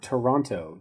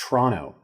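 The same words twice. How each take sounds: First: Both T sounds are clearly pronounced. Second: The second T sound is dropped. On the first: The speaker calls it wrong. "It's not Toronto. You don't pronounce both T's" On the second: The speaker calls it right.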